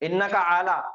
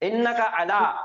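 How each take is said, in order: First: The first vowel of 'ala' is drawn out long. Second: The first vowel of 'ala' is said quickly, short. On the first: The speaker calls it wrong. "बाज लोग पढ़ने में आला पढ़ते, ... गलत है वो।" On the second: The speaker calls it right. "आइन के ऊपर जबर आ गया, जल्दी पढ़ना है"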